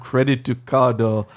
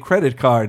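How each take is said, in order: First: It is said with Japanese-style added vowels. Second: It is said with plain American English sounds. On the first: The speaker calls it wrong. "not credito cardo" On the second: The speaker calls it right. "I want to say credit card"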